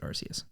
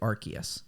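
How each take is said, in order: First: The C is pronounced as a soft S sound. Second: The C is pronounced as a hard K sound. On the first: It is the pronunciation that sounds better. "I will always pronounce it Arceus" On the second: It avoids sounding like a rude word. "that's why they say Arceus, like in the dub"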